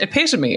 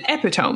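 First: The word ends with an 'ee' sound. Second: The word ends like the word 'tome'. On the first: The speaker calls it right. "It's pronounced epitome" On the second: The speaker calls it wrong. "I pronounced it epitome because that's how it's spelled"

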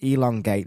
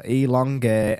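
First: The vowels are short and clipped. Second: The vowels are stretched out long. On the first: "I don't elongate the vowels" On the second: "Unless I go elongate"

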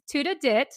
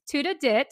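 First: It is said with a Filipino accent. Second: The same.

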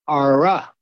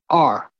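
First: The word ends with an added vowel sound. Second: The word ends cleanly on the r sound. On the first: "would say R-A" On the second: "We say R"

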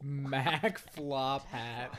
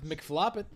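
First: It is said at normal speed. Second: It is said very fast, run together.

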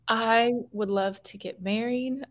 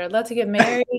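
First: It is said at normal, quieter volume. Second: It is said noticeably louder.

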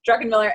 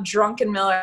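First: The name sounds like 'drucken miller'. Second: The name sounds like 'drunken miller'. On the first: The speaker calls it right. "So it's Druckenmiller" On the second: The speaker calls it wrong. "it's not Druckenmiller. ... I'm not wasted"

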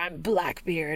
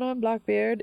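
First: It is said in a harsh pirate voice. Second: It is said in a soft, gentle Kiwi accent. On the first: "instead of this harsh, like, arr, let's go, mateys" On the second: "Kiwi accents are very soft and genial and lovely"

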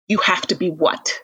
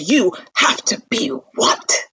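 First: It is said seriously, without yelling. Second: It is yelled loudly.

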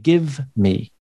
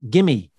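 First: The two words are said separately. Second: The two words are blended into one. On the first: "instead of give me" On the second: "We combine sounds. We say gimme"

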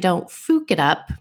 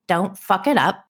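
First: The third word has a German 'oo' vowel. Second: The third word has an English 'uh' vowel.

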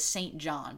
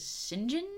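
First: The name is pronounced just as it is spelled. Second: The name is pronounced differently from its spelling. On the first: "it reads as St. John" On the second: "but everyone says St. John?"

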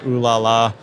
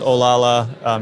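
First: The name begins with an 'oo' vowel. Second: The name begins with an 'oh' vowel. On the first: The speaker calls it wrong. "It's not Ulala" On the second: The speaker calls it right. "but it is Olala"

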